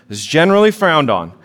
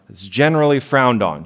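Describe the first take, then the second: First: Repeated louder for emphasis. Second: Said in the usual way. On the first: Shown as a demonstration. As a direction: say it again with weight.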